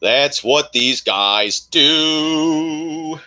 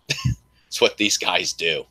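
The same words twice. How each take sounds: First: Slow drawn-out repeat. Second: Said in the usual way. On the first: Real, not acted. Repeating to viewers, stretched very slow. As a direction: drag the line out for emphasis. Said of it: "drawn-out repeat". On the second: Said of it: "first take".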